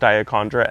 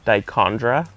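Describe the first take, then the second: First: An extra vowel syllable follows the first syllable. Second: No extra vowel syllable follows the first syllable. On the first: The speaker calls it wrong. "I always heard it as Diachondra" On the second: The speaker calls it right. "there's definitely no A, and it should be like Dichondra"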